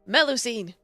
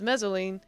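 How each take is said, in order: First: The name is said like 'Melusine'. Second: The name is said like 'Mezzolene'. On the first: The speaker calls it right. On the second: The speaker calls it wrong.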